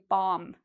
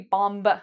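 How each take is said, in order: First: No B sound is pronounced at the end. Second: A B sound is pronounced at the end. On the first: The speaker calls it right. "No, we say bomb" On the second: The speaker calls it wrong. "So we don't say bomb"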